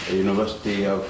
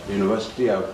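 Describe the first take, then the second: No difference in how they are said.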